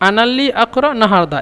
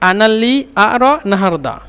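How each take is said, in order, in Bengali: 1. মাঝের শব্দে একটি গভীর পশ্চাৎ Q ধ্বনি আছে। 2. মাঝের শব্দে তার বদলে একটি গ্লটাল স্টপ আছে।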